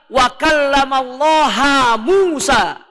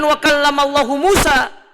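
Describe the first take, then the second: First: The word before Musa ends in an a vowel. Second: The word before Musa ends in a u vowel. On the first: God is the one spoken to. The speaker calls it wrong. "hu-nya doma diganti dengan ha" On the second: God is the one who speaks. The speaker calls it right. "Harokatnya itu doma"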